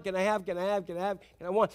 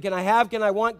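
First: Put-on pestering child fading softer. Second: Put-on whiny repeated asking child; pestering child. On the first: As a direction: let the nagging trail off quietly. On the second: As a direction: nag like a small child. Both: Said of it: "it's constant".

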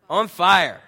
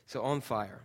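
First: Louder, punched, higher declaration; emphatic loud answer. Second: Said in the usual way. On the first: Acted. Pastor to congregation, answering what En Fuego means, loud and emphatic. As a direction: announce the series title like a rallying cry.

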